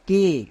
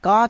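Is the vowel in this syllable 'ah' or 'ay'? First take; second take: ay; ah. First: The vowel is a long 'ay' sound. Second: The vowel is a short 'ah' sound. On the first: The speaker calls it right. "সেই এ এর জন্য long sound, একার sound হবে" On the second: The speaker calls it wrong. "কা কিন্তু না"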